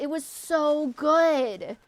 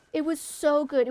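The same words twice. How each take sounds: First: Slow, stretched "It was so good."; drawn-out longing. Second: Said in the usual way. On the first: Shown as a demonstration.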